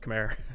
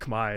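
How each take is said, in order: First: The word does not sound like 'Kamai'. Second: The word sounds like 'Kamai'. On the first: The speaker calls it wrong. "It's not pronounced Khmer" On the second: The speaker calls it right. "it's pronounced Khmer"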